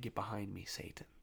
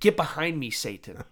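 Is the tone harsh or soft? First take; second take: soft; harsh. First: It is said in a soft, gentle tone. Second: It is said in a harsh, stern tone. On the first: It is a correction given with mercy. "There's a softness" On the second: It is a sharp rebuke. "Sometimes I need to be spoken to that way"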